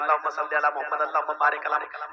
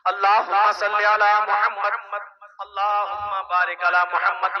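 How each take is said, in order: First: It is recited hurriedly, without pausing. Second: It is recited slowly and calmly.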